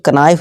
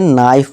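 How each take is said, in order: First: The word begins with a k sound. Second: The word begins with an n sound. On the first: The speaker calls it wrong. "अब इसे कनाइफ नहीं" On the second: The speaker calls it right. "इसे नाइफ पढ़ेंगे"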